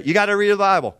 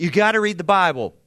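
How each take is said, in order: First: Higher and louder, stress on "the Bible"; emphatic urging. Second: Louder, pressed gotta; emphatic urging. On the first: Preacher urges the church family again. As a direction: punch "the Bible". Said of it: "now I can say". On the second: Preacher urges the church family to read. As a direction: lean on "gotta". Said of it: "And I'll pause". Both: Shown as a demonstration.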